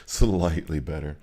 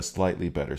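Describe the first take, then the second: First: "Slightly" stretched slow, then "better"; slow, leaning hard on "Slightly"; drawn-out SLIGHTLY. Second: Said in the usual way. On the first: Real, not acted. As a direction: stretch out "Slightly" for wry emphasis. Repeats it for wry emphasis.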